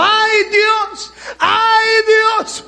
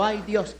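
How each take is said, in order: First: High, loud wailing ¡Ay Dios!, crying out; loud, high acted cry of dying fear; terrified cry. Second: Said in the usual way. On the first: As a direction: scream to God as death comes. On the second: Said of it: "Dos veces dijo".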